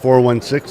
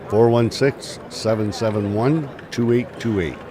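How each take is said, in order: First: The number is said at normal speed. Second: The number is said slowly.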